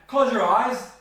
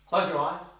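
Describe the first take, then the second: First: It is said as a firm command. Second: It is said as a plain statement.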